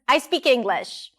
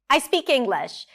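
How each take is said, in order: First: It is said with a light, joking intonation. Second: The same.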